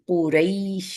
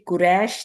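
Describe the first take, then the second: First: The second vowel is a soft gliding diphthong. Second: The second vowel is a flat 'ai'. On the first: This is the Arabic way of saying it. The speaker calls it right. "अरबी में इसको लीन करके अदा करते हैं" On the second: This is the everyday Urdu way of saying it. The speaker calls it wrong. "Urdu में हम इसको कुरैश बोलते हैं"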